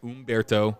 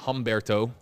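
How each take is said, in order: First: The name begins with a vowel sound. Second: The name begins with an H sound. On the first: The speaker calls it right. "but it is Umberto" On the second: The speaker calls it wrong. "it's not Humberto"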